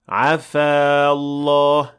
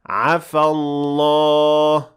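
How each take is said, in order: First: The vowel at the end of the first word is long. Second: The vowel at the end of the first word is short. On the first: The speaker calls it wrong. "we will not say عفا الله. That is not correct" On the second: The speaker calls it right. "The alif at the end of عفا will be dropped"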